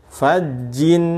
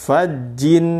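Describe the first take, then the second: Both takes have the same delivery.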